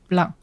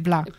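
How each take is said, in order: First: It is said with a slight English accent. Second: It is said with a Quebec French diphthong. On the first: "I'm saying it with a slight English accent for the listeners" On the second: "in everyday life, I would say blanc. Like with the Quebecer diphthong"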